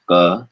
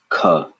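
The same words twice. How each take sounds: First: "ka" with no puff of air, k held tight; unaspirated ka. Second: "ka" with a strong puff of air after k; aspirated ka. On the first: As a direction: say "ka" stopping the air completely. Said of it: "Number one". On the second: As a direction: say "ka" letting air burst onto the hand. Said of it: "and number two". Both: Shown as a demonstration.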